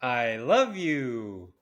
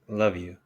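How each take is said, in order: First: It is said in a normal-pitched voice. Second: It is said in a deeper, lower voice.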